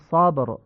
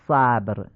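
First: The first vowel is a short, open aa. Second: The first vowel is a front, Persian-like a. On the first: The speaker calls it right. "میگیم صابر" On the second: The speaker calls it wrong. "نمیگیم صبر"

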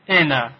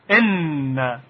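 First: The n sound is short and light. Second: The n sound is held long and firm. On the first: The speaker calls it wrong. "اگر نون تشدید نداشت میگفتیم انا انا" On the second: The speaker calls it right. "اما حالا که تشدید داره اون رو محکمتر تلفظ میکنیم"

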